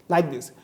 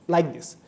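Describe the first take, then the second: No difference in how they are said.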